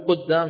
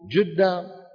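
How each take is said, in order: First: The word begins with a back q sound. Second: The word begins with a g/j sound. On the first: "بدل ما يقول قدام" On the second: "من يبدل القاف جيم"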